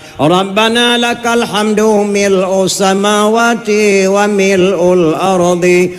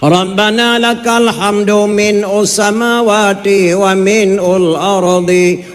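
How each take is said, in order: First: The word before samawati is said as mil'u. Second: The word before samawati is said as min. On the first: The speaker calls it right. "Ya yang betul" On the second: The speaker calls it wrong. "sebab cacat ba sami Allah"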